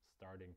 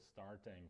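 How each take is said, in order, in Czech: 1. R se vyslovuje a T je změkčené. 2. R i T se vyslovují plně. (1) "Američani ... ho tam vysloví, ale místo T vysloví" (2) "Češi by to takhle vyslovili"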